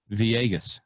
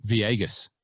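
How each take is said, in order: Both takes have the same delivery.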